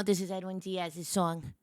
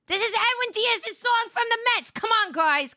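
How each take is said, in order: First: Said in the usual way. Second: Very excited. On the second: Real, not acted. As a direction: burst out like a thrilled Mets fan. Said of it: "I got very excited".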